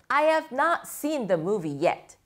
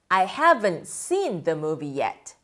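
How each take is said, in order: First: "Have not" is said as two full words. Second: "Have not" is shortened into one word.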